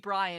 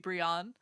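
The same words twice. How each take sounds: First: The first vowel sounds like 'eye'. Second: The first vowel sounds like 'ee'. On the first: The speaker calls it wrong. "it wouldn't be Brian" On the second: The speaker calls it right. "I's are always pronounced like E, ... it would be Brian"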